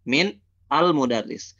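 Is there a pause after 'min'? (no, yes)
yes. There is a pause after min. "kalau dibacanya min, antum stop"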